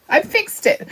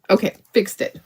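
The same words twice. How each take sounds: First: Chirpy high-pitched I fixed it; proud little cheer. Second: Said in the usual way. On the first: Real, not acted. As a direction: pitch jumps way up on I, pleased with herself. Proud repeat after fixing a spot.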